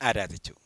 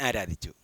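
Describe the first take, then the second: No difference in how they are said.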